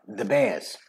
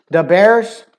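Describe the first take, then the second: First: "the Bears" low and soft, r dropped; New York "the Bears", softened r; New York accent. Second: "The Bears" as "Da Bears", loud and high; hard-r Chicago "The Bears"; Chicago accent. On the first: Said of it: "in New York it'd be". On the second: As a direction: punch "The Bears" like a Chicago fan. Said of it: "As to where in New York". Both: Shown as a demonstration.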